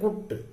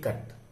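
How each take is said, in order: First: The vowel is a rounded 'oo' sound. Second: The vowel is a short open 'uh' sound. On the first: The speaker calls it wrong. "we don't say kut" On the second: The speaker calls it right. "But அதை விட ஷார்ட்டா சொல்லணும் அ அதான் அதனுடைய உச்சரிப்பு"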